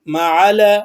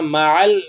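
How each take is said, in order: First: The L sound is given an extra vowel. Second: The L sound is kept still without vowel. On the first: The speaker calls it wrong. "मअल मअल ऐसे नहीं करेंगे" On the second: The speaker calls it right. "मअल हिलाना नहीं है"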